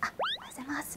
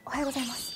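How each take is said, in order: First: The greeting sounds timid and hesitant. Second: The greeting sounds confident, like a veteran.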